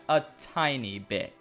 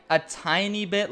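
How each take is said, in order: First: Slow, deliberate stress on "a tiny bit"; emphatic TINY. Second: Said in the usual way. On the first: Shown as a demonstration. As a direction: draw out "tiny" slowly for emphasis. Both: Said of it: "let me emphasize that".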